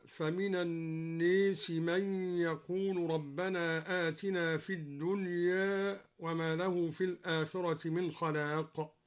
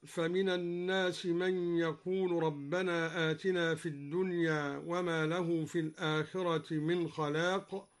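First: الناس said an-nees and الدنيا with its end half leaned to e; الناس with imala, الدنيا with light imala; imala on people and world. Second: Said in the usual way. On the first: Shown as a demonstration. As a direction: lean الناس fully and الدنيا slightly toward e. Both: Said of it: "أمال لفظ الناس وقلل لفظ الدنيا".

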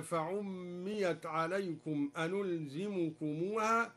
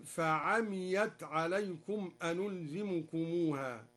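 First: Said in the usual way. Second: "فعميت" said fa-amiyat, single m; slow recitation, open a and undoubled m in "فعميت"; light mim reading. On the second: Shown as a demonstration. Teacher showing al-Duri's reading, "فعميت" as fa-amiyat. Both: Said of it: "قرأها الدوري".

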